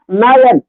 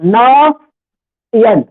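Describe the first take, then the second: First: Said in the usual way. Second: नयन drawn out very slowly; said with pauses. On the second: Shown as a demonstration. Teacher tells pupils to say नयन pausing. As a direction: stretch नयन syllable by syllable. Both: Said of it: "रुक के बोलो".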